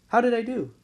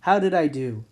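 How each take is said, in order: First: Pitched higher, fishing for praise; asking again, higher. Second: Said in the usual way. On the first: Real, not acted. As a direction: repeat the question pitched higher, playful. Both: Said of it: "just a little dad joke there".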